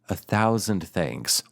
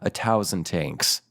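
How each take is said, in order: First: It is said plainly, with a th sound. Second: It is said in an Irish accent, with a t sound.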